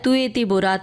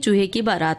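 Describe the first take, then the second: First: The sounds are softened into lisping baby talk. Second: The sounds are pronounced clearly like an adult. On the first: A small child is speaking. The speaker calls it wrong. "तुए ती बोरात नहीं" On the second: It is the correct adult pronunciation. The speaker calls it right. "सही उच्चारण करें"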